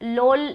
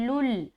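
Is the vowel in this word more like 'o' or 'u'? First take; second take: o; u. First: The vowel sounds like 'o'. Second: The vowel sounds like 'u'. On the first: The speaker calls it wrong. "लोल नहीं" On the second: The speaker calls it right. "बल्कि लुल"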